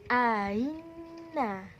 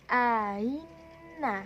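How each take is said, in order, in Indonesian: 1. Hamzah kedua melunak menjadi bunyi y. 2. Hamzah kedua melunak menjadi bunyi y.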